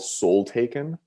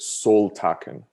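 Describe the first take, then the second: First: The second part sounds like the ordinary word 'taken'. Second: It is run together as one single word.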